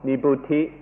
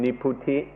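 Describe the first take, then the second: First: The word has its standard Pali pronunciation. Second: The word has a Thai pronunciation.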